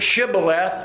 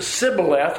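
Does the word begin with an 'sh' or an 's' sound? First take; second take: sh; s. First: The word begins with an 'sh' sound. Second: The word begins with an 's' sound. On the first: The speaker is from Gilead. The speaker calls it right. "they would say the word shibboleth" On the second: The speaker is from Ephraim. The speaker calls it wrong. "They pronounced the word sibboleth without the H"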